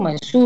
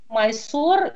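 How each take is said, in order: First: The last vowel sounds like oo. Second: The last vowel sounds like o. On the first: This is the local Indian pronunciation. "Индийцы говорят Майсур. … вот так" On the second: This is the Western pronunciation. "именно вот такое западное произношение"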